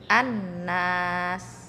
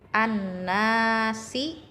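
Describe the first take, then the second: First: The word ends on a consonant. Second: The word ends with a short vowel. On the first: The reading stops on this word. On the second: The reading continues without stopping.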